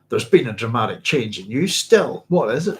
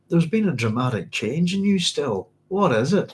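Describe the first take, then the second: First: It is said in a provocative tone. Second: It is said in a sympathetic tone.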